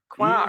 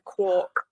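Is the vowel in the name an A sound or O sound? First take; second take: A sound; O sound. First: The vowel is an A sound, not O. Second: The vowel is an O sound, not A. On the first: This is how the character says the name. "she pronounces it Quark. ... There's no O sound" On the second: This is how the name is usually said. "A rather than a quark"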